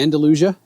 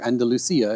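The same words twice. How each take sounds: First: The name is pronounced the Texan way. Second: The name is pronounced the Spanish way. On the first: "if you live in Texas" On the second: "if you live in Spain"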